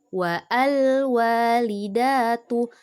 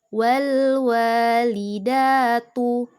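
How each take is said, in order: First: A separate 'a' vowel is sounded before the L. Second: The 'al' joins straight onto the previous word. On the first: The speaker calls it wrong. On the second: The speaker calls it right. "Alifnya jangan dibaca, tapi langsung ke lam sukun"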